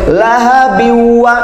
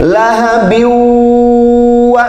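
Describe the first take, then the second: First: The nasal sound before 'wa' is cut short. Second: The nasal sound before 'wa' is held long. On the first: The speaker calls it wrong. "nggak boleh lahabin wa" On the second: The speaker calls it right. "ditahan tiga harakat"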